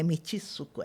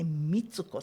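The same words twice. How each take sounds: First: An extra vowel splits t and su. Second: The ts is said as one sound. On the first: The speaker calls it wrong. "Isso não é Mitsuko" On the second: The speaker calls it right. "ela é Mitsuko Sensei"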